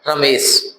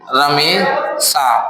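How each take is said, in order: First: The name ends with a short, clipped vowel. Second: The name ends with a drawn-out long vowel. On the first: "केवल ये वाला छोटा वाला आ" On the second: "इसमें आ, बड़ा आ निकल रहा है"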